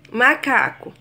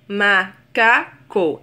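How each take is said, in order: First: Said in the usual way. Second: "macaco" split slowly into ma, ca, co; syllable by syllable. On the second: Shown as a demonstration. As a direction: pause after each syllable of "macaco". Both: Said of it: "Existem três sílabas".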